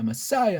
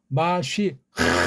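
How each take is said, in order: First: It is said English-style, ending in a vowel. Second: It ends with a breathy final h sound. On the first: The speaker calls it wrong. "폼 잡는 사람은 영어식으로 머싸야 머싸야 하잖아" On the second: The speaker calls it right. "마쉬 흐 이렇게 해야 돼요"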